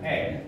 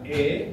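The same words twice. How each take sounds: First: The vowel is an open e, as in bebek. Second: The vowel is a closed e, as in sate. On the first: "bebek, nenek" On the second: "Like you say sate"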